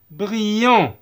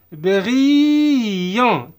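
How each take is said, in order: First: Said in the usual way. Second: "Brillant" stretched as briii-yan; teacher's slow-motion "Brillant"; drawn-out demo. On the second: Shown as a demonstration. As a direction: hold the long I in "Brillant" before the nasal ending. Teacher stretches the word for learners.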